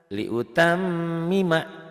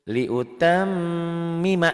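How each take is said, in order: No difference in how they are said.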